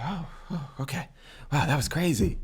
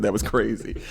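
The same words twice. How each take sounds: First: Dazed man waking. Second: Said in the usual way. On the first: Retold or imitated. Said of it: "he's like". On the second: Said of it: "I assume that's what he said".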